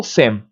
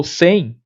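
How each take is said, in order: First: "sem" with the lips closing on a full M; spelling-style "sem", sounded M at the end; wrong literal M. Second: "sem" ending in a nasal glide, like "sẽi"; no closed M at the end of "sem"; natural nasal "sem". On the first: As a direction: shut "sem" on a hummed consonant M. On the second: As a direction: let "sem" glide into a nasal i, lips open. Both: Shown as a demonstration. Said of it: "eu não falo sem".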